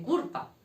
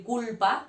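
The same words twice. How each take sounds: First: "culpa" said as curpa, r tapped in place of l; "culpa" with the Andalusian r for l; l turned to r. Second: Said in the usual way. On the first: Shown as a demonstration. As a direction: say "culpa" with an r, cur-pa. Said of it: "las Ls las cambian por una R". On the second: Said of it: "en vez de decir culpa".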